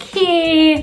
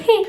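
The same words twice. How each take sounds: First: High, long-held HEY; fun drawn-out hey. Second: Short, higher HEY; a quick, pitched-up HEY; hey with exclamation. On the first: Greeting as a jolly person who loves life, fun drawn-out hey. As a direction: stretch out HEY playfully, pitched up. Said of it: "hey with two Y's or more ... usually very fun". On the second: Greeting someone you want to be close with, exclaimed hey. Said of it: "hey with an exclamation". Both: Shown as a demonstration.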